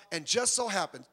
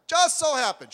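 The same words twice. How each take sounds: First: Said in the usual way. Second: High, loud emphatic "just so happens"; louder, higher repeat of "just so happens". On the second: Real, not acted. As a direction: punch "just so happens" harder the second time.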